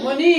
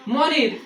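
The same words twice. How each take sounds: First: মনি with the final r left silent; British dropped R. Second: মনির with the final r sounded; local final R. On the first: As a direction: end মনি on the vowel, British-style. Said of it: "কিন্তু ব্রিটিশরা যখন মনির বলবে". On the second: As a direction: say মনির, ending on a clear r. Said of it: "আমরা তো মনিরই বলবো". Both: Shown as a demonstration.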